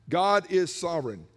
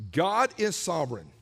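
First: God said firmly again; stress on God repeated. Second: God said firmly; stress on God. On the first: Preacher repeating the key truth, God stressed. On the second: Preacher stating a key truth, God stressed. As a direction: land hard on God. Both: Shown as a demonstration.

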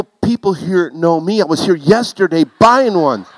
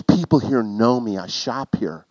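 First: Mock her words in exasperation; husband throwing her excuse back at her; indignant echo. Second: Said in the usual way. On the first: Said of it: "I go". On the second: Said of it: "She goes".

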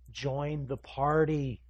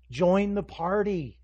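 First: Slow, drawn-out invitation; measured urging. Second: Louder, higher, slow plea; insistent urging. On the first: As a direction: urge them slowly, holding back the volume. Jesus urging, first take. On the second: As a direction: press the invitation harder, loud and drawn out. Jesus urging, insistent repeat. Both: Acted.

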